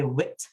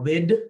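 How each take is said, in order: First: The word ends with a t sound. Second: The word ends with a d sound. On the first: "a temptation to say wit" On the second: "or wid"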